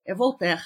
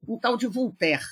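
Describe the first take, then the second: First: Voltaire said vol-TÉR with a clear o; correct Voltaire. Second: Voltaire said as vul-TÉR with an open u; mispronounced Voltaire. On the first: Shown as a demonstration. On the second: Retold or imitated. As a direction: say Voltaire like vultér, informant's way.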